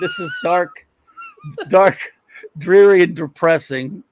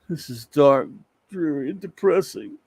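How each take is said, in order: First: It is said in an amused, laughing tone. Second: It is said in a gloomy, dreary tone.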